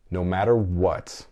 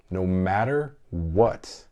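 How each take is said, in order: First: Slow, firm promise; firm vow. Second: Drawn-out, deeply earnest promise; slower earnest vow. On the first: A dad promising his boys no matter what, firm. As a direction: say it like a vow you mean. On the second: Repeating the vow to listeners, slower and earnest. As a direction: stretch it out, sincere. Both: Real, not acted. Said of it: "committing to his boys".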